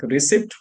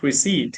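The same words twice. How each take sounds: First: "receipt" with the P sounded; everyday Indian pronunciation. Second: "receipt" with silent P; standard pronunciation. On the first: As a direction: say "receipt" as "re-SIPT", P heard. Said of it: "always it is, like". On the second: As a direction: say "receipt" as "re-SEET". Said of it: "not receipt". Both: Shown as a demonstration.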